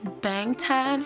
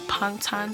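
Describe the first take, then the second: First: The word begins with a clear b sound. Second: The word begins with a p-like sound. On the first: The speaker calls it wrong. "it won't pronounce as Bangtan" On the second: The speaker calls it right. "The B sound sounds like a P"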